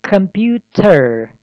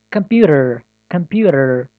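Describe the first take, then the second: First: Computer said slowly with a hard T; wrong clear T. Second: Computer with the T as a quick D, like compuder; flap T. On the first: Teacher demonstrates the wrong way to say computer. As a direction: stretch computer out with a stiff T. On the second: Teacher models the flapped computer. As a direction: flick the T in computer into a D. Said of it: "T ошол D тыбышын берет". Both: Shown as a demonstration.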